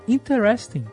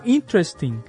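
First: The stress falls on a later syllable, New York style. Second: The stress is on the first syllable.

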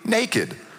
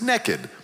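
First: It is said in a standard accent. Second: It is said in an East Texas accent.

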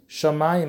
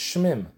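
First: A vowel sounds between the sh and the m. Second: The sh runs straight into the m, no vowel. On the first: The word is read by the received tradition. The speaker calls it right. "as if there's an aleph between the shin and the mem" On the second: The word is read only from its written letters. The speaker calls it wrong. "If you look at the word, maybe it's shmim"

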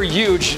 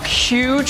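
First: The word begins without an h sound. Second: The word begins with a clear h sound. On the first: "soft H" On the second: "hard H"

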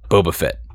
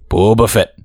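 First: It is said plainly, without special inflection. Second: It is said with Boba Fett's little inflection.

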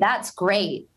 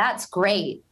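First: It sounds passive-aggressive. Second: The same.

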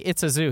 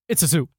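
First: It is said smoothly, at normal pace. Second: It is stammered and drawn out.

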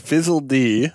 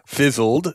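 First: The name ends with the letter name dee. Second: The name ends with a plain d sound. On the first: "So the idea is Fizzle D" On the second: "you could also pronounce it Fizzled"

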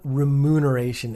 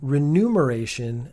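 First: It begins 're-mu', with m before n. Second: It begins 're-nu', with n before m. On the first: The speaker calls it right. "and not remuneration" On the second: The speaker calls it wrong. "I've been saying remuneration as in number"

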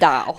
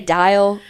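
First: The name is said in a country accent. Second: The name is said in a standard accent. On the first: "So my country is going to slip out, and I'm going to call it Dial" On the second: "But I'm trying to say Dial, like, okay, so y'all know what the word I'm saying"

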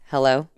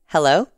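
First: It sounds low-power and deflated. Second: It sounds high-power and confident.

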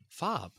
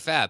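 First: The vowel sounds like the a in father. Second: The vowel sounds like the a in cat. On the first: It follows the same pattern as the car brand Saab. "So F-A-A-B would be" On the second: It sounds like the word for something glamorous. "But I'm going to say FAB. FAB to me is like when something's glamorous"

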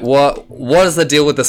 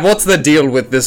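First: It is said in the speaker's natural voice. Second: It is said in a put-on character voice. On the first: The speaker calls it wrong. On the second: The speaker calls it right.

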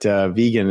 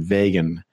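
First: The first part does not sound like Vega. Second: The first part sounds like the name Vega. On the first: The speaker calls it right. "vegan is the correct pronunciation" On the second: The speaker calls it wrong. "I kept wanting to pronounce it vegan. I think there's Vega"

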